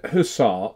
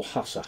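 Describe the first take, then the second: First: Hussar said hoo-SAR; "Hussar" as huh-ZAR or huh-SAR, weight on the end; stressed second syllable. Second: Hussar said HUSS-uh; "Hussar" as HASS-uh, short final vowel; stressed first syllable. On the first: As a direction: say "Hussar" with a long, stressed final -ar. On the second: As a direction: say "Hussar" with stress up front and a weak ending. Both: Shown as a demonstration. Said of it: "do you pronounce it Hussar or Hussar".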